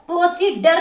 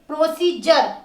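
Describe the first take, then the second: First: The middle consonant is a d sound. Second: The middle consonant is a j sound. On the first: The speaker calls it wrong. "प्रोसीडर नहीं बोलोगे" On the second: The speaker calls it right. "इसको आप completely बोलोगे जर"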